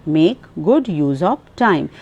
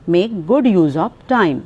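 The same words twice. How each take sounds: The two takes are said the same way.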